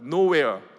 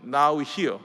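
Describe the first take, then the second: First: It is said as one joined word. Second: It is said as two separated words. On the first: It is nowhere. "붙여서 읽으면" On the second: It is here now. "나눠서 읽으면"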